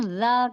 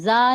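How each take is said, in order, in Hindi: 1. व्यंजन कठोरता के बिना, नरमी से बोला जाता है। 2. व्यंजन कठोरता और ज़ोर से बोला जाता है। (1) "ज़ा कहेंगे" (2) "ऐसे सख्ती नहीं आती, ज़ा नहीं कहेंगे हम"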